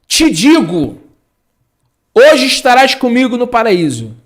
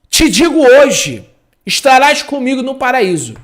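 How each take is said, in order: First: The pause comes after the word digo. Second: The pause comes after the word hoje. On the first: Being in paradise happens that very day. The speaker calls it wrong. "Uma vírgula muda toda a frase" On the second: The promise is made today; the time in paradise is unspecified. The speaker calls it right. "Primeira versão"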